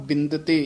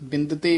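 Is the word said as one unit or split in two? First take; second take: one unit; one unit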